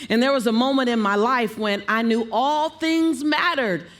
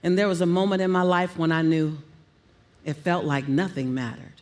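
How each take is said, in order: First: High verbal highlight. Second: Low verbal highlight. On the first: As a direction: pitch climbing up on "all things mattered". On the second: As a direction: pitch sinking low on "nothing mattered". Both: Shown as a demonstration. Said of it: "play on all the keys".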